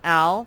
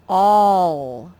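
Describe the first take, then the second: First: The vowel is a short 'a' sound. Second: The vowel is an 'aw' sound. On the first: The speaker calls it wrong. "this is not al" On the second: The speaker calls it right. "this A makes the aw sound"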